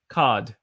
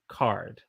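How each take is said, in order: First: The R sound is dropped completely. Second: The R sound is strong and held. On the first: "I sounded a little bit fake British" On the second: "we use a very hard R sound when we make words like card"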